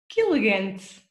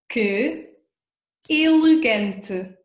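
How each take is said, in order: First: It is said quickly, the words run together. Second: It is said at a normal, careful pace.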